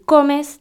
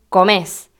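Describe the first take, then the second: First: The stress is on the first syllable. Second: The stress is on the last syllable. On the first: This is the standard tú form. "la única diferencia es la de acentuación" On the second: This is the Argentine vos form. "decimos comés"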